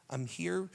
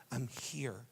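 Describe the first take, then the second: First: Said in the usual way. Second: Soft reassurance. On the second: Acted. Jesus comforting a believer, softly. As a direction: hush them gently.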